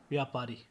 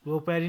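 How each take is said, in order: First: Said in the usual way. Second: व्यापारी with o in the first syllable; mispronunciation. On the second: Shown as a demonstration. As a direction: say vyo-paari for व्यापारी. (व्यापारी को व्योपारी बोलें) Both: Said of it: "नहीं".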